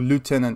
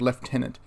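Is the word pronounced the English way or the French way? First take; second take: French; English. First: The word is said with a French pronunciation. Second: The word is said with an English pronunciation.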